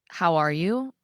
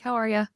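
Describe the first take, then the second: First: It is asked with genuine interest. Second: It is tossed off casually, in passing.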